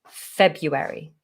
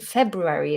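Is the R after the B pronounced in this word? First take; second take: no; yes. First: The R after the B is left out. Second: The R after the B is pronounced. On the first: The speaker calls it wrong. "which is not the correct pronunciation" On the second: The speaker calls it right. "is the correct pronunciation"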